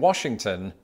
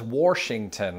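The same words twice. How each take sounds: First: Washington is pronounced the standard general American way. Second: Washington is pronounced the regional West Virginia way. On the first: "pronouncing Washington as" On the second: "I heard this for the first time in West Virginia"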